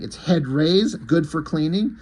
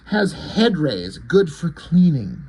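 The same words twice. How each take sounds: First: Questioning lift on "rays" and "cleaning"; puzzled echo. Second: Slow, deliberate alien pronouncement; lightly voiced alien, drawn-out words; possessed alien. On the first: Retold or imitated. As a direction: repeat it back as a question, rising at "cleaning". Leonard echoes her words, puzzled. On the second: Possessed Suprema's line being voiced.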